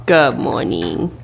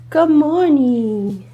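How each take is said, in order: First: Talking to a dog. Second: Slow, high cooing greeting; cooing to a dog. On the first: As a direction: murmur a gentle good morning. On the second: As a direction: coo gently to wake him. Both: Real, not acted. Waking sleeping dog.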